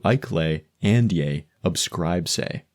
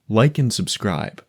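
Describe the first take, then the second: First: "Ike lay and yay, obscribe say" said slowly in Pig Latin. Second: Said in the usual way. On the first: Shown as a demonstration. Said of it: "would turn into". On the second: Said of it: "Here's an example".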